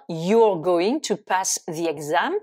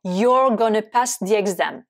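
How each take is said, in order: First: Said in the usual way. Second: "gonna" said as one reduced word; spoken-English "gonna" with schwa ending; contracted gonna. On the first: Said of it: "Ça veut dire". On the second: Shown as a demonstration. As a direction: run "going to" together into "gonna". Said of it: "c'est la contraction de going to".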